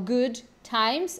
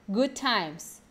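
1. O D final de "good" é claramente pronunciado. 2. O D final de "good" é omitido. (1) "Ao invés de falar o good times" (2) "a gente não fala esse D, a gente junta tudo"

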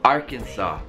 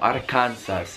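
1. La parola finisce senza suono di S. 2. La parola finisce con un suono di S udibile. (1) "la S in entrambi i casi si toglie" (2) "Non diciamo"

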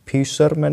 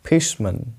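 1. 'fish' के बाद r ध्वनि उच्चारित होती है। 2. 'fish' के बाद r ध्वनि साइलेंट है। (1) "फिशरमैन नहीं" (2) "इसमें आर भी साइलेंट है"

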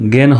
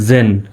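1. এটি শক্ত g দিয়ে শুরু। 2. এটি j উচ্চারণ দিয়ে শুরু। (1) "গেন হবে না" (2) "জির উচ্চারণ জয়ের মতো"

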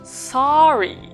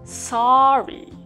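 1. 最初の母音は「あ」と「お」の間です。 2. 最初の母音は「あ」と「お」の間です。

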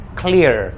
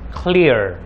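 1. R di akhir kata kuat dan terdengar jelas. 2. R di akhir kata kuat dan terdengar jelas.

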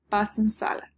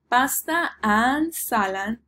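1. La palabra and se reduce a n. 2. La palabra and se pronuncia completa. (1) "El reduced is only n" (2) "La forma larga, completa de full form is and"

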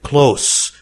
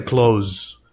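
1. الحرف الأخير صوت S، وهو صوت صفير. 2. الحرف الأخير صوت Z، وهو صوت طنين. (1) "حرف الإس هنا نطقه سا وليس زا" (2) "وليس"

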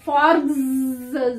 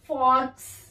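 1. यह शब्द घोष z ध्वनि से खत्म होता है। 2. यह शब्द अघोष s ध्वनि से खत्म होता है। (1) "ज नहीं आएगा" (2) "फॉर्क स आएगा"

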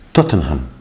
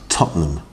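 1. Cada letra y cada sílaba se pronuncian completas. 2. Las sílabas se reducen, no se pronuncia cada letra. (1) "está escrito como Tottenham, no Ham, Tottenham. Pero no decimos eso tampoco" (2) "Decimos Tottenham"

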